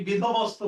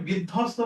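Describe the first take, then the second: First: বিধবস্ত as bidho-bosto, b pronounced; sounded b. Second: বিধ্বস্ত as bid-dhosto, no b sound; silent b. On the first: Teacher offering the false spelling pronunciation, b sounded. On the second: Teacher offering the usual form, b left silent. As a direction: double the dh in বিধ্বস্ত, dropping b. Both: Shown as a demonstration. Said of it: "এটাকে বিধ্বস্ত বলি নাকি বিধবস্ত বলি".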